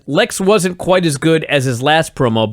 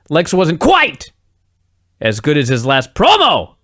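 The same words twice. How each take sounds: First: It is said evenly with no word yelled. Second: One random word is suddenly yelled out loud. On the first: "So if the line is" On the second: "he would say"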